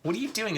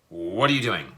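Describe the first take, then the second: First: It is said in a playful, teasing tone. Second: It is said in an irritated, demanding tone.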